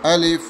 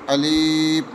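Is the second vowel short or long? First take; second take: short; long. First: The second vowel is kept short. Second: The second vowel is drawn out long. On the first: The speaker calls it right. "ऐसा ना पढ़ें बल्कि अलिफ" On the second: The speaker calls it wrong. "बहुत सारे बच्चे अक्सर ऐसा पढ़ते हैं अलीफ, ये गलत"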